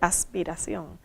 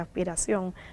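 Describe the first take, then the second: First: The s is a clear hissing s sound. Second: The s is aspirated like a breathy h. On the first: "no dije aspiración" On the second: "en la palabra dije aspiración ... Nosotros aspiramos la S"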